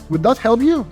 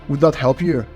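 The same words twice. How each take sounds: First: The pitch climbs upward through the question. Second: The pitch drops downward toward the end. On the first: The speaker is seeking approval. "This is an upward inflecting tonality" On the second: The speaker sounds authoritative but standoffish. "I'm pulling my voice down towards the end"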